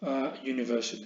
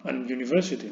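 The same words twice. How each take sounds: First: A university with a y glide, said as aj unifersit; the right form, a before university; correct article. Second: An university said as a wrong example; wrong article. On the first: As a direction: say a university, the a flowing into the y sound. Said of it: "precederlo por un sonido vocálico". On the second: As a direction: say an university as the incorrect form. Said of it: "Sería incorrecto". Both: Shown as a demonstration.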